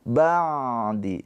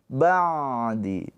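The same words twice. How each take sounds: The two takes are said the same way.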